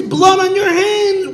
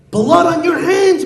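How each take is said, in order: First: Higher, slower, dragged-out accusation; accusing, slower. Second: High loud accusation; accusing. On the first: Community head repeating his accusation, slower and higher. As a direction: drive it home slowly. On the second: Community head accusing Chaim Yankel, loud and high. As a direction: hurl the blame at him. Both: Acted. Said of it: "rebuking him and chastising him".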